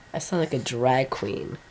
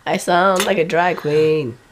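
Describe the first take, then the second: First: Low, soft and croaky, unhurried; raspy sick voice, quiet; hoarse drag queen voice. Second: Slow, croaky, in full voice; drawn-out raspy sick voice; hoarse drag queen voice. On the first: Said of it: "hear my voice like this". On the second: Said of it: "Holy crap". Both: Real, not acted.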